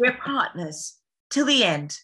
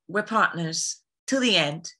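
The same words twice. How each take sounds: First: Dramatic, higher-pitched vow; heightened heroic declaration; more dramatic. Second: Said in the usual way. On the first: Shown as a demonstration. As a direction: play it up with drama, pitch raised. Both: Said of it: "you gotta be more dramatic".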